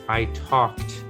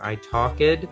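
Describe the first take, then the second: First: The ending is said as a plain T sound. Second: The ending is said as an extra 'ed' syllable. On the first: The speaker calls it right. "with a T sound" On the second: The speaker calls it wrong. "That's what you would think"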